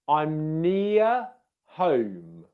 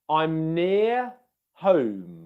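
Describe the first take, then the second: Both takes have the same delivery.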